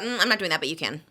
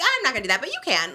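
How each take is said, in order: First: It is said in a cold, dismissive way. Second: It is said in a friendly, light way.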